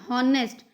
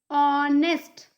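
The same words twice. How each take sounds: First: The word begins with a sounded h. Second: The word begins with a silent h. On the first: The speaker calls it wrong. "It's not honest" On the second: The speaker calls it right. "it is honest"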